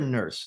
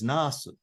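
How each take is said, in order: First: It is said as the English 'nurse' sound. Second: It is said as Japanese-style 'nasu' with vowels. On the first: "They don't hear nurse" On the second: "they were taught the pronunciation of that word is nasu"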